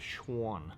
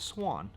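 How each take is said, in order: First: The word begins with a shw sound. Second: The word begins with a plain s sound. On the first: The speaker calls it right. "the Schwan" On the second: The speaker calls it wrong. "not the Swan"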